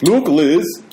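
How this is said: It is said in a put-on foreign accent. "I can't do accents"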